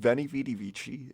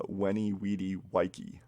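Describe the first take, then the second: First: Each word begins with a v sound. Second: Each word begins with a w sound. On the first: This is the familiar everyday version. The speaker calls it wrong. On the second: This is how it was originally said. The speaker calls it right.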